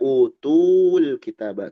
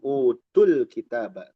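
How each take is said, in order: First: The vowel in tu is lengthened. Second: The vowel in tu is kept short. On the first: The speaker calls it wrong. "Tidak dibaca utul kitaba. Tunya tidak dipanjangkan" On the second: The speaker calls it right. "kalau disambung utul kitaba, tidak ada mad"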